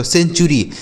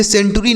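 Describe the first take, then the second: First: "सेंचुरी" said with ch, sen-chu-ri; correct pronunciation. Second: "सेंचुरी" said with a hard T, sen-tu-ri; "सेंचुरी" misread with a T instead of ch; wrong pronunciation. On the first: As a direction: say "सेंचुरी" with the T turned into ch. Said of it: "इसका उच्चारण हमें च करना होगा". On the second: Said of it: "इसे सेंचुरी नहीं पढ़ेंगे". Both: Shown as a demonstration.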